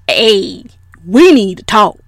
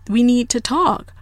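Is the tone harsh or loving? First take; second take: harsh; loving. First: It is said in a harsh, confrontational tone. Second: It is said in a warm, loving tone.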